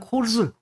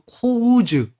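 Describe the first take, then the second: First: The vowel is a plain, steady o. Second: The vowel glides from o to u. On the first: This is the usual pronunciation. "일반적으로 그냥 코즈 이렇게 발음하면 좋습니다" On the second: Some people pronounce it this way. "어떤 분은 또 코우즈"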